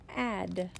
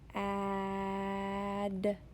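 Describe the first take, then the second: First: The word is said quickly as one unit. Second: The word is stretched out slowly. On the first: "Say it fast" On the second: "practice saying a word slowly"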